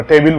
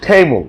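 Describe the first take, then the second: First: টেবিল with a full i in the second syllable; টেবিল, the common Bengali way; wrong table. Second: টেবল said the English way, short second vowel; টেবল with a light schwa, not an i; correct table. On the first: Teacher shows students the mistaken টেবিল pronunciation. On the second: Teacher shows students the right টেবল pronunciation. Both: Shown as a demonstration. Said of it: "আমরা টেবিল বলি আর কি".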